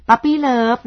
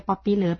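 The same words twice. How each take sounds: First: Puppy love with "puh-pee", vowel "uh"; correct reading. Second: Puppy love as "poppy love", vowel "o"; common misreading. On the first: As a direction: say puppy love opening on "pup", not "pop". (อ่าน puppy love ว่า ปัปปี้เลิฟ) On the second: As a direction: say puppy love opening on "pop". (อ่าน puppy love ว่า ป๊อปปี้เลิฟ) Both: Shown as a demonstration. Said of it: "ไม่ใช่ puppy love จริงๆ".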